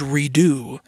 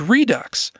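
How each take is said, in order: First: The word ends with a vowel sound. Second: The word ends with a 'ks' sound. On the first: The speaker calls it right. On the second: The speaker calls it wrong.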